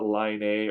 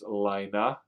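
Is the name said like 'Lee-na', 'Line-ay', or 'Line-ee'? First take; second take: Line-ay; Lee-na. First: The name sounds like 'Line-ay'. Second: The name sounds like 'Lee-na'. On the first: The speaker calls it wrong. "it's not Line A" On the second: The speaker calls it right. "It's Lina"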